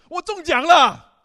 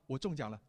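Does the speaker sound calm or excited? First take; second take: excited; calm. First: It is said with lively excitement. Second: It is said flatly, without excitement. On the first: The speaker is genuinely thrilled by the news. The speaker calls it right. "这是你真正的内心的表达" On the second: The news does not seem to matter much. The speaker calls it wrong. "可能也表达你很淡定哈，你不是很在乎"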